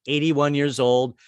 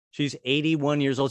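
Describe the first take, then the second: First: Put-on "eighty-one years old" slowed, each word weighted; slow pointed repeat of "eighty-one"; slow emphatic age. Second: Said in the usual way. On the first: Shown as a demonstration. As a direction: lean on "eighty-one" for effect.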